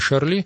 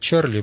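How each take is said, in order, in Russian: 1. Имя начинается со звука ш. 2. Имя начинается со звука ч. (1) "но по-французски правильно «Шарли»" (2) "некоторые говорят «Чарли Эбдо»"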